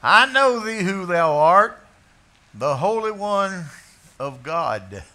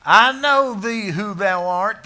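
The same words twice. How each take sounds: First: Loud, high, strange voice, stress on know; a possessed man crying out; demon's confession. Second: Loud, high and slow, leaning on know; thundering scripture line; loud quote. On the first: Acted. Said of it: "Now, this isn't a visiting preacher". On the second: Shown as a demonstration. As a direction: proclaim it slowly and loud. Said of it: "Thank you. I can see that sign".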